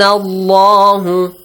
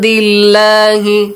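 First: The L in Allah is heavy and full. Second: The L in Allah is light and thin. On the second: "there is a kasra right before the word Allah"

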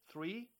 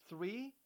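No difference in how they are said.

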